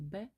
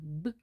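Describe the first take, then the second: First: The consonant is said with a following vowel. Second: The consonant is said alone, without a vowel. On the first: This is the name of the letter. The speaker calls it wrong. "не Б" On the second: This is the sound the letter stands for. The speaker calls it right. "вчити дитину вимовляти звуки саме так, як вимовляються звуки"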